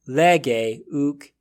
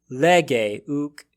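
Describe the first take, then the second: The two takes are said the same way.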